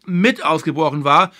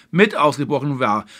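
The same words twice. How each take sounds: First: Deliberate stress on "mit"; pointed emphasis on the word "mit". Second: Said in the usual way. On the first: Real, not acted. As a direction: lean on "mit" in "mit ausgebrochen". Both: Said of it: "Ich betone ganz gezielt".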